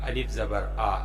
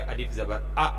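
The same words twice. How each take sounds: First: The final vowel is voiced smoothly without a jerk. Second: The final vowel is cut off with an abrupt jerk. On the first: The speaker calls it right. "यहां पे सिर्फ आवाज निकालनी है" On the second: The speaker calls it wrong. "ऐसे नहीं, ये झटका यहां नहीं लगेगा"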